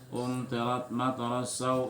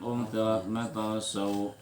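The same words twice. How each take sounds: First: It runs on with a short final 'sau'. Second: It stops on a drawn-out final 'sau'. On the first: The reciter continues to the next word. "Tapi bila disambung" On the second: The reciter pauses at this word. "Bila berhenti"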